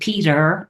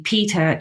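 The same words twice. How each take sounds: First: The name ends in an 'er' sound. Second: The name ends in a plain 'ah' vowel. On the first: It is the male name. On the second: It is the female name.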